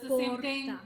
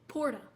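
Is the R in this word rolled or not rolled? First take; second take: rolled; not rolled. First: The R is said with a roll. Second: The R is said without a roll. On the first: The speaker calls it right. "It's not even that hard" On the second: The speaker calls it wrong. "people butcher the pronunciation so bad"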